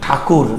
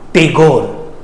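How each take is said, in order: First: The name is said with an aspirated 'th' sound. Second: The name is said with a plain 't' and 'g'. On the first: This is the Indian way of saying the name. The speaker calls it right. "why I am telling Thakur" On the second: This is the British way of saying the name. The speaker calls it wrong. "British people Tagore कहते थे ... गलत pronunciation"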